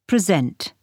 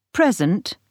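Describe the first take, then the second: First: "present" with the weight on SENT; verb stress. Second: "Present" with the weight on PRE; noun stress. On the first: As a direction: stress on the second syllable, preSENT. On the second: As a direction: stress on the first syllable, PREsent. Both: Shown as a demonstration. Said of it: "the stress can move".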